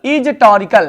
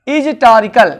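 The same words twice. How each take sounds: The two takes are said the same way.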